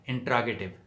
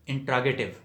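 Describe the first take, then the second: Both takes have the same delivery.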